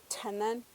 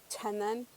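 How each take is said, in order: Both takes have the same delivery.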